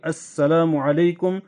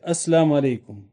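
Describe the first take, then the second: First: The greeting is said fully, every syllable clear. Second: The greeting is clipped, with a syllable dropped. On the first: The speaker calls it right. "You should say it very clearly" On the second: The speaker calls it wrong. "They don't really say it very clearly"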